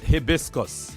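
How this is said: It is said with a British pronunciation. "The British call it"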